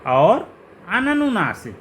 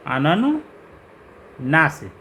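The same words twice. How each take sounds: First: Said in the usual way. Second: अननुनासिक stretched very slowly, syllable by syllable; drawn-out term. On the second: Shown as a demonstration. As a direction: spell out अननुनासिक by sound, very slowly.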